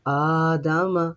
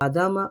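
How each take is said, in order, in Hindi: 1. पहला स्वर लंबा है। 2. पहला स्वर छोटा है। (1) "हमज़ा के ऊपर खड़ा ज़बर है" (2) "अगर हम इसके ऊपर भी अ, ज़बर करते तो अदामा"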